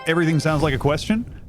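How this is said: The pitch rises high at the end. The speaker calls it wrong. "I just literally did it"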